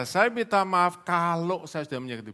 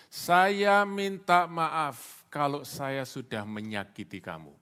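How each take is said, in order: First: "kalau" punched loud and high; stress on KALAU. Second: Slow, deliberate model apology, loud then dropping away; insincere apology. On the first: Preacher exposing the condition in an apology, "kalau" punched loudly. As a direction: hit "kalau" hard within a raised, quicker apology. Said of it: "Kata "kalau" itu, saudaraku, cuma satu kata". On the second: Preacher showing a classic insincere apology, slow and deliberate. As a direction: spell out the fake apology slowly. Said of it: "Itu permintaan maaf yang tidak tulus". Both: Shown as a demonstration.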